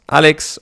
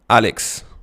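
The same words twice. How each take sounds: First: The voice rises on the name. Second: The voice falls on the name.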